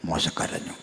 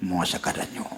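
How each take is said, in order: First: Whispered, no voice on മോശ കരഞ്ഞു; hushed whisper. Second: Said in the usual way. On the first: Shown as a demonstration. Preacher repeats, hushed for effect.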